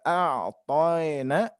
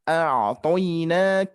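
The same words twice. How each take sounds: First: The vowel glide drifts toward an 'e' sound. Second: The vowel glide ends on a clear 'i' sound. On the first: The speaker calls it wrong. "hati-hati tidak a'toina ya, tidak mengarah ke e" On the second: The speaker calls it right. "tapi i, ke i saja"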